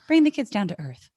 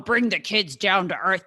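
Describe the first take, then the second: First: The phrase is said in a nicer, gentler voice. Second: The phrase is said in a harsher, blunter voice.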